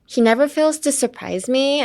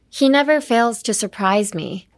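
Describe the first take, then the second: First: The melody rises at the end of the sentence. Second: The melody falls at the end of the sentence. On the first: The speaker calls it wrong. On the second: The speaker calls it right.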